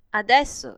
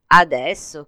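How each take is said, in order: First: ADESSO pitched high, then falling decisively; firm answer. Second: ADESSO as a loud question, rising at the end. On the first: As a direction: answer "Adesso" loudly, starting high and dropping at the end. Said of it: "rispose la madre". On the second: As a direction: ask "Adesso?" with strong volume and a final rise. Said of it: "chiese Tombolo". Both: A narrator's reading.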